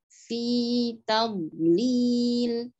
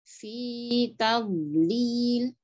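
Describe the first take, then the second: Both takes have the same delivery.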